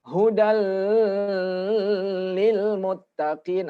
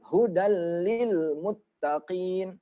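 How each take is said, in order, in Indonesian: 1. Bunyi gabungannya dibaca terlalu panjang. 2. Bunyi gabungannya pendek dan cepat. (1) "baca yang salah ini contohnya" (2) "Jadi dia cepat"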